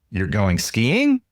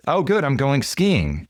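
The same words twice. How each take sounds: First: "skiing?" lifted at the end, slow, a question; upward intonation echo. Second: Said in the usual way. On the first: Shown as a demonstration. Echoing neighbor Mike's words back with a rising question tune. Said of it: "say it back to them with an upward intonation". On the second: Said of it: "He says".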